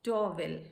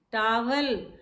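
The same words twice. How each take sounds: First: TOWEL as TOH-vel, rounded first vowel; taught pronunciation. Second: टावल as TAA-val, open A; wrong pronunciation. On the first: Teacher modelling for students, TOWEL as TOH-vel. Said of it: "correct pronunciation is". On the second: Teacher quoting what we say, टावल as TAA-val. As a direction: open wide on the first vowel of टावल. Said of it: "no, it is towel". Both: Shown as a demonstration.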